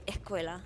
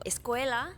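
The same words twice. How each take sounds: First: The s sound is skipped over. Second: The s sound is clearly pronounced.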